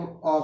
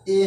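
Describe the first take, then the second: First: "अ" as a short schwa, the reduced article a; weak "अ", no ay glide; weak form. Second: "ए" as a full long ay vowel; full-vowel "ए", not reduced to uh; strong form. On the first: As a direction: say "अ" as an unstressed uh. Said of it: "weak form में ए को क्या बोला जाता है". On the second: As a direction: say "ए" like the letter A. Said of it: "strong form में ए को". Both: Shown as a demonstration.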